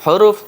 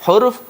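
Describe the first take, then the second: The two takes are said the same way.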